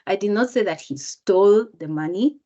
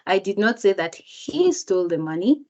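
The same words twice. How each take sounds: First: The word "stole" carries the main stress. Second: The word "he" carries the main stress. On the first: He got the money some other way. "if I change the word even stole, just by intonation" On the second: Someone else stole the money. "If the speaker emphasizes the word he"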